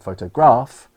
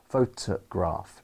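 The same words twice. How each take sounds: First: The stress falls on a different syllable. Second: The stress falls on the usual syllable. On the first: The speaker calls it wrong. "that would be wrong" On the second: The speaker calls it right. "I put the stress on the t"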